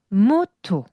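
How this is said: The pitch drops low on the last syllable. The speaker calls it right. "이런 식으로 음이 이용 내려가죠"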